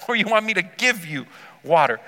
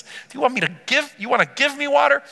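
First: "give you" set against the other option, falling at the end; stress on YOU. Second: "give me water" pitched high as the first option; higher questioning lift through "you wanna give me water"; stress on ME. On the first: Confused woman asking the reverse offer, stress on "you". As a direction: lean on "you", then let "water" drop. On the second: Confused woman asking who gives water, stress on "me". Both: Retold or imitated. Weighing two opposite offers.

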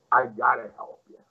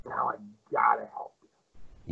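First: Said in the usual way. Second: Hushed whisper, a secret confided. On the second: Retold or imitated. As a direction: lean in and whisper it. Promoter's quiet final line.

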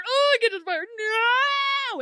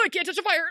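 First: Hammed-up wail, much higher and louder; mock wail. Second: Mock whine. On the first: Imitating David unable to reach the hat, louder mock wail. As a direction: overdo the helpless whine, growing. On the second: David whining about the fire.

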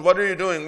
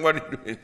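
First: Loud and high, all weight on WHAT; full-volume outraged demand; indignant shout. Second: A calmer echo of the outraged shout. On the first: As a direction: bellow WHAT are you doing. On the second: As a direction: still raised but less loud, stress on WHAT. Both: Acted. Crowd scolding, repeated.

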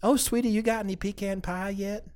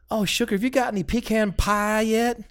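First: High Southern old lady voice, softer, imitated; Southern hostess softly offering pie to a guest; old lady Southern accent. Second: A lightly put-on Southern lady asking a guest about pie; old lady Southern accent. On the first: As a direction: sweetly ask in a Southern grandma accent. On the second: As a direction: coo it like a Southern grandmother offering pie. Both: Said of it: "doing the old lady Southern".

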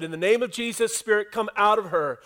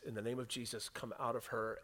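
First: Forceful command. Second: Low, very soft command; hushed command. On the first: Paul to the spirit in the girl, forceful command. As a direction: order it out with force. Acts Paul casting out the demon. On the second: Paul, annoyed, to the spirit, hushed command. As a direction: give the order low and quiet. Paul, fed up, retold very softly. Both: Acted.

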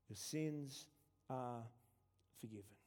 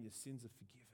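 First: "Your sins" then pause, "are", pause, "forgiven." fading soft; word by word. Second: Softer, hushed statement of forgiveness. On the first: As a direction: spell it out slowly, each word apart. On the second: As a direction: say "Your sins are forgiven." softly in one flow. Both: Shown as a demonstration.

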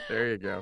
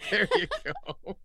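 First: Said in the usual way. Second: High squeal of a laugh through the words; delighted giggling approval. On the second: Real, not acted.

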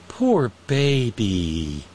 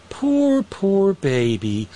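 First: Mocking baby talk. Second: Squeaky high then drawn-out pity; mock coo, pitch jumps up; mocking baby talk. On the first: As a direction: drag it out, mock sympathy. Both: Mocking the fired forecaster.

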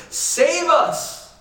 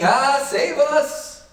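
First: High, loud cry of save us; urgent plea. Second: High, slow, drawn-out panicked cry of Ah, save us; a hammed-up terrified plea; mock panic. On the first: Retold or imitated. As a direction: call save us out like men about to drown. Disciples cry out in storm. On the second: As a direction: act out the frightened disciples in the boat. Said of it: "they're panicking".

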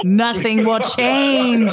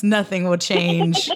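First: "Nothing will change" drawn out slowly, CHANGE stretched hard; emphatic repeat. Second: Said in the usual way. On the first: Acted. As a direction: declare "Nothing will change", very slow and firm on "change".

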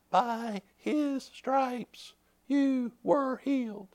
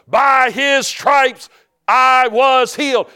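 First: Very soft, slow, higher-pitched; a faint, drawn-out voice from within; low inner voice. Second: Slow, high, loud declaration; louder than the devil. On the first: Inner voice to a bedridden man, hushed and slow. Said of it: "like, low on the inside". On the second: Believer answering the devil, loud defiant declaration. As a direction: proclaim it forcefully, word by word. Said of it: "You gotta get louder than the devil". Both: Retold or imitated.

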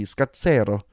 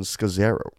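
First: Scazzero the Italian way, skah-TSEH-ro, with a ts sound and a tapped r; Italian pronunciation. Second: Scazzero read the American way, skuh-ZAIR-oh, ending on a rise; American pronunciation. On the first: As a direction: say Scazzero like an Italian, zz as ts, falling at the end. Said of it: "If I remember my Italian class". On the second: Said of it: "an American intonation". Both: Shown as a demonstration.

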